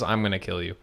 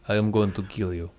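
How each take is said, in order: First: It is said in his ordinary accent. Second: It is said in a Russian accent.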